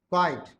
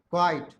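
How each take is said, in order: Both takes have the same delivery.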